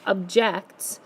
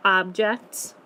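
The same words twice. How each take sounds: First: "object" said ub-JECT, weak opening vowel; stress on second syllable. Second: "object" said OB-ject, full opening vowel; stress on first syllable. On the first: Teacher showing this other word, stressed ub-JECT. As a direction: verb form "object", uhb-JECT. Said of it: "we have this word here". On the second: Teacher making sure pupils say OB-ject. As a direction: noun form "object", AHB-ject. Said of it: "making sure you're saying object". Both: Shown as a demonstration.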